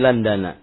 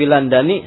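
First: The word ends with an 'a' vowel. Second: The word ends with an 'i' vowel. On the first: The speaker calls it right. "maka tanda kasrohnya adalah fathah" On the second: The speaker calls it wrong. "Kalau dibaca dengan huwa fi Landani, salah"

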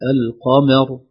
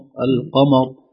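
First: The meem is pronounced light, not emphatic. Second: The meem is pronounced heavy and emphatic. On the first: The speaker calls it right. "لا" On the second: The speaker calls it wrong. "فتفخم الميم"

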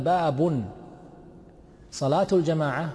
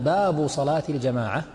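First: Bab is separate, with salat starting a new phrase. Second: Bab is bound to the next words as one phrase. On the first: The prayer is the subject and the next verb is its predicate. "راح تصير تلزم إيش؟ خبر للمبتدأ صلاته" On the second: The heading ends here and the next verb starts a new sentence. "تصير كلمة تلزم إيش؟ جملة مستأنفة"

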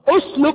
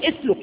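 First: The first vowel is u. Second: The first vowel is not u. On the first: The speaker calls it right. "الحرف الثالث منها مضموم" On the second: The speaker calls it wrong. "لا أقول"

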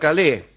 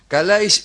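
First: The name is pronounced the French way. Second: The name is pronounced the Greek way. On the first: The bearers of the name would be French. The speaker calls it wrong. "y no Calé" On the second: The bearers of the name are Greek. The speaker calls it right. "ya que son griegos y no franceses"

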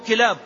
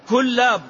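First: The first vowel is i with a single l. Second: The first vowel is u with a doubled l. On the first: The speaker calls it wrong. "ما هو كلاب" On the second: It names a hook. The speaker calls it right. "كلاب الكلاب والخطاف معروف"

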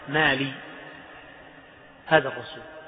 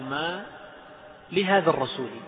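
First: The break comes after the lam sound. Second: The break comes right after ma. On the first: "وقف بعضهم على اللام" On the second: "وبعضهم وقف على ما"

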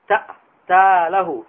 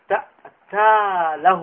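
No difference in how they are said.

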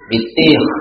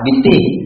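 First: The word ends with a rasping kh sound. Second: The word ends with a soft, plain h sound. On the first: The speaker calls it right. "bitih berkhok" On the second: The speaker calls it wrong. "bitih salah nak"

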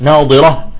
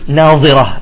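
First: The middle consonant is the emphatic dad sound. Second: The middle consonant is the interdental dha sound. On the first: The faces are radiant. The speaker calls it right. "وجوه يومئذ ناضرة" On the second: The faces are looking. The speaker calls it wrong. "بعضهم يقول ناظرة، اختلف المعنى إذا قلبها ضاء"

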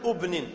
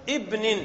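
First: The first vowel is not a short 'i'. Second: The first vowel is a short 'i'. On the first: The speaker calls it wrong. "لا تقول ابن" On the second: The speaker calls it right. "فاكسرا ... فتقول ابن"

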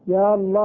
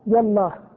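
First: Long ya runs into Allah, no glottal stop. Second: Short ya runs straight into Allah, no glottal stop. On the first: "إثبات الألف الأولى وحذف الثانية" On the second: "بحذف الألفين"

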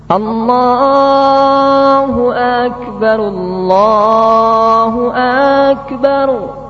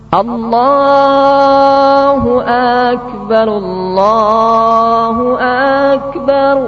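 The two takes are said the same way.

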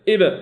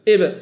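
First: The b ends with a short bouncing echo. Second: The b ends with a short bouncing echo.

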